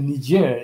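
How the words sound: It is said with a British pronunciation. "the kind of like the British, you know, standard pronunciation"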